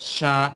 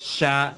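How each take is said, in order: Both takes have the same delivery.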